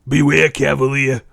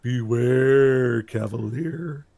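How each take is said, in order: First: Loud mock Brooklyn warning; hammed-up Brooklyn delivery; Brooklyn accent. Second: Slow, drawn-out eerie warning; spooky mock-prophetic voice; ominous helmet warning. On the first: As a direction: echo the warning as a Brooklyn tough. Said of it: "not in a Brooklyn accent". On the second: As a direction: imitate an enchanted helmet, stretching the words. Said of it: "the eyes glow green and goes".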